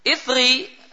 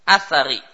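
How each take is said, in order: First: It starts with i and has no vowel after th. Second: It starts with a and has a after th. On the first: "bisa hamzahnya kasrah dan tha-nya disukun" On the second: "bisa juga hamzah dan tha-nya di fathah"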